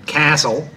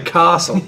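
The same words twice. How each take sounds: First: Said in the speaker's own usual Australian accent. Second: Said the way people in Adelaide say it. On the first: "I think like I say castle" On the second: "but they'll say castle"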